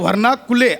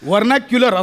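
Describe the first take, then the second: First: The word ends with a plain 'kule' sound. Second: The word ends with a 'kyular' sound. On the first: The speaker calls it wrong. "शब्द वर्णा कुले असा नाहीये" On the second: The speaker calls it right. "वर्नाक्युलर असं आहे"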